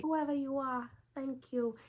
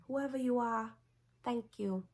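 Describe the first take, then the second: First: Much higher, more theatrical Lois voice; dramatic Lois impression. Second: High, airy Lois voice; Lois impression. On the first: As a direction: ham up the gratitude, soaring high. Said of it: "but it's kinda dramatic". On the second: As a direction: play it as a grateful heroine, lightly over the top. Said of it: "and she was like".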